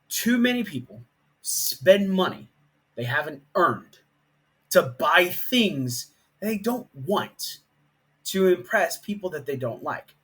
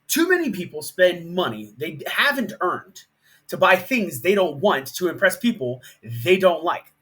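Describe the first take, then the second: First: It is said slowly and deliberately. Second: It is said at a normal pace.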